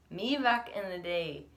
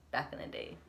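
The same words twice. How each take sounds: First: Said in the usual way. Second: "back in the day" breathed out softly like a lightly voiced old-timer; old person voice. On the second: Shown as a demonstration. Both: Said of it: "I sound like an old person".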